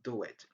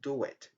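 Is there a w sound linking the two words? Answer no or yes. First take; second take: yes; yes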